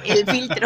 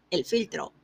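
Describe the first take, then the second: First: "el filtro" laughed out loud and punched; laughing emphasis. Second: Said in the usual way. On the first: Shown as a demonstration. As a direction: repeat "el filtro" louder through a laugh.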